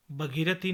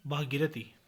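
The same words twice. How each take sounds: First: भगीरथी with short bha; mispronunciation. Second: Said in the usual way. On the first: Shown as a demonstration. (भगीरथी, छोटा भ) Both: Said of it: "नहीं".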